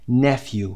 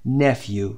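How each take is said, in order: First: "nephew" said as NEF-yoo, first syllable stressed; pronounce nephew. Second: "nephew." said as NEF-oo, with a falling end; pronounce nephew. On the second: (تلفظ «nephew.» به صورت نِفو) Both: Shown as a demonstration.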